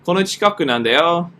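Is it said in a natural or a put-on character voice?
natural. It is read in the speaker's natural voice.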